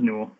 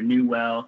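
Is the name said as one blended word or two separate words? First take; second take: one blended; two separate. First: It is said as one blended word. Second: It is split into two separate words. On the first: The speaker calls it right. "It's just Newell" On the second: The speaker calls it wrong. "they want to separate. They want to say like knee well or new well. They actually want to pronounce well"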